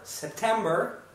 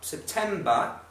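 First: American accent with a strong R sound. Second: British accent with a soft R sound. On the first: "o americano vai pronunciar isso aqui basicamente como" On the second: "Olha como é que o britânico vai falar"

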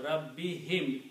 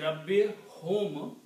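First: The final syllable has an 'i' vowel. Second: The final syllable has a 'u' vowel. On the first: "it comes out Rabbi him. It's smooth" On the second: "instead of saying Rabbi hum"

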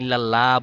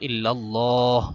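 First: The L sound is thin and light. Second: The L sound is heavy and thick. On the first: The speaker calls it wrong. "এখানে ইল্লাল্লাহ বললে ভুল হবে" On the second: The speaker calls it right. "মোটা করে বলতে হবে"

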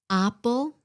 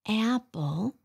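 First: The first vowel is a Vietnamese-style a. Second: The first vowel is a short English a. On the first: The speaker calls it wrong. "When the Vietnamese mispronounce the short A, they say A" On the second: The speaker calls it right.

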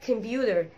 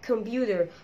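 Both takes have the same delivery.

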